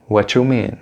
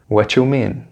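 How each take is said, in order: The two takes are said the same way.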